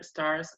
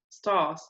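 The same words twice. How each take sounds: First: The R after the vowel is pronounced. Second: The R after the vowel is silent.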